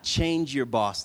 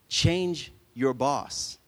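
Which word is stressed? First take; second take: change; boss. First: The stress falls on the word change. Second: The stress falls on the word boss. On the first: Alter the person who is your boss. The speaker calls it wrong. "Not change your boss, like change them" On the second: Replace whom you work for. The speaker calls it right. "but change your boss. See how that made it clearer?"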